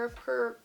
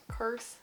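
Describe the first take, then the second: First: Soft, cut-off word with a Utah vowel; slip into Utah accent. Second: Said in the usual way. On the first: Real, not acted. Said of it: "I live in Utah". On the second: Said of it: "don't have that bad of an accent".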